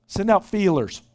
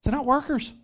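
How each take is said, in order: First: Said in the usual way. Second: "workers" lifted high and punched as the right answer; stress on workers. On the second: Shown as a demonstration. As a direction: land "workers" clearly higher than "feelers". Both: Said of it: "what does he say?".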